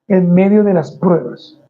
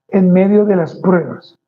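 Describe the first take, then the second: No difference in how they are said.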